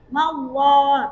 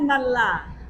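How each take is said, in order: First: The 'llah' sound is heavy and thick. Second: The 'llah' sound is light and thin. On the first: The speaker calls it right. "tebalkan huruf Allahnya" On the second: The speaker calls it wrong. "jangan mallah"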